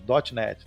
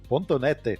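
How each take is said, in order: First: The dot is read as English 'dot'. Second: The dot is read as Portuguese 'ponto'. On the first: The speaker calls it right. "É .net" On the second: The speaker calls it wrong. "ele falava .NET. Ponto .net"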